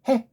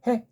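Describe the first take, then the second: Both takes have the same delivery.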